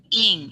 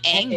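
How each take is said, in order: First: The vowel sounds like 'ih'. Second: The vowel sounds like 'eh'. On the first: The speaker calls it right. "but ing" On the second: The speaker calls it wrong. "but it's not eng"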